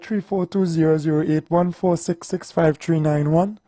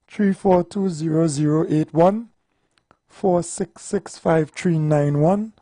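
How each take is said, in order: First: The number is read at a faster pace. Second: The number is read at a slower pace.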